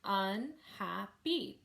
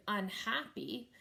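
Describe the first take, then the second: First: "Unhappy" slowly clapped out, un-hap-py; three separate beats on "Unhappy"; syllable by syllable. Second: Said in the usual way. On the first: Shown as a demonstration. Teacher clapping syllables for a student, "Unhappy" split un-hap-py. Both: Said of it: "clap the syllables first".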